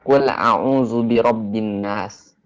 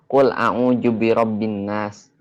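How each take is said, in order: First: The consonant in a'udzu is a z sound. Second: The consonant in a'udzu is a j sound. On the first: This is how it is supposed to be recited. The speaker calls it right. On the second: This is how Sundanese people usually recite it. The speaker calls it wrong. "Orang Sunda biasanya"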